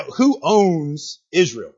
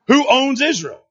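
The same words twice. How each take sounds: First: Drawn-out, measured question; slow question. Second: Higher, firmer, quicker question; confident re-ask. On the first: Preacher quizzing the congregation, slow question. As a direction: ask it slowly, stretching the words. First asking, audience answers weakly. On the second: Preacher re-asking the congregation for confidence, raised and insistent. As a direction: lift the pitch and demand an answer. Asks again, demanding more confidence. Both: Real, not acted.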